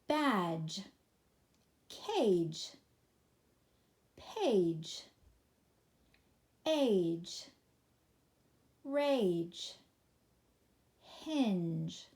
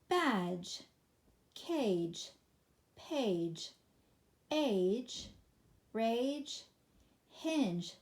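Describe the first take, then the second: First: The list is read at a slow pace. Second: The list is read at a quicker pace.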